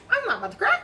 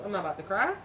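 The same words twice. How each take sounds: First: High, squeaky insistence; fighting tears. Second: Said in the usual way. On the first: Real, not acted. Reader telling herself not to cry, high and strained. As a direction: push it up high, holding back tears.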